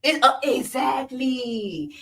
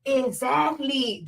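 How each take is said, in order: First: Slow, hesitant then smug exactly; pause, then drawl exactly; mocking the hosts, slow hesitant "exactly"; mocking podcast hosts. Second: Slow, drawn-out smug exactly; mocking the hosts, slow smug "Exactly"; mocking podcast hosts. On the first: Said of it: "rename this podcast the Exactly Podcast". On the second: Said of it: "two dumb bitches look at each other".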